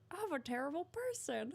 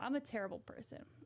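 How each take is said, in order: First: It is said in a Mickey Mouse voice. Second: It is said in the speaker's normal voice.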